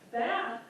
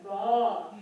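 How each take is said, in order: First: Bath is said with an American accent. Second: Bath is said with a British accent.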